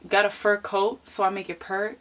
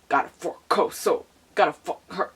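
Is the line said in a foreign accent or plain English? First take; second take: plain; foreign accent. First: It is said in plain, clear English pronunciation. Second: It is said with an imitated foreign accent. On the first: "It don't sound like that" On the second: "their accents. When they speak English"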